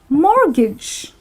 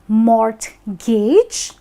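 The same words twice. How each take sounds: First: The t in the middle is silent. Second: The t in the middle is clearly pronounced. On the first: The speaker calls it right. "wherein the T is silent" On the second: The speaker calls it wrong. "It is not mortgage, because you know it's not like mort"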